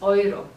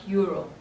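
First: The word is said with German vowel sounds. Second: The word is said with English vowel sounds. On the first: The speaker calls it right. "It's pronounced euro" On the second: The speaker calls it wrong. "not euro"

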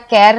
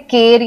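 First: The vowel is an ae sound. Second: The vowel is a short e sound. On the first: "हम इसे केर या कैर नहीं बोलते" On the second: "हम इसे केर या कैर नहीं बोलते"

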